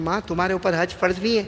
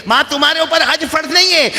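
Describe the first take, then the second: First: Said in the usual way. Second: Son's line repeated higher and louder; raised insistent son. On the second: Retold or imitated. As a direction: insist firmly, raising the voice. (بیٹے کی بلند اور پُرزور آواز)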